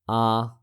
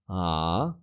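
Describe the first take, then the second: First: The pitch stays level throughout. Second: The pitch dips down and then rises. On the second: "falling, then rising"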